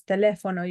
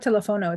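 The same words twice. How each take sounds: First: "teléfono" stressed on the accented LÉ. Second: "teléfono" with the stress wrongly on FO; "teléfono" stressed on the second-to-last syllable; mispronounced stress. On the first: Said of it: "You see the accent?". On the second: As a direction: say "teléfono" as te-le-FO-no, English-style. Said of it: "It's not teléfono". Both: Shown as a demonstration.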